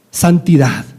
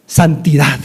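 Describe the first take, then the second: No difference in how they are said.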